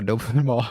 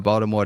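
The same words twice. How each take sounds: First: Baltimore said the local way, middle consonant softened; Baltimore accent. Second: Said in the usual way. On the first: Shown as a demonstration. Co-host showing how Baltimore sounds different from D C, local Baltimore accent. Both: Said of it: "D C sound different from Baltimore".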